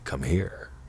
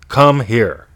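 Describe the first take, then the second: First: It is said in a flirty, teasing tone. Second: It is said in a bossy, commanding tone. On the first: "in a flirty way" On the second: "the bossy one"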